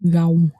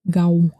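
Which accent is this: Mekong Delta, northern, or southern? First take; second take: Mekong Delta; Mekong Delta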